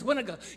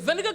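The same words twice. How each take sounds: First: It is said in a Gullah accent. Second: It is said in a standard American accent. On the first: "Gullah says vinegar" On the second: "You say vinegar"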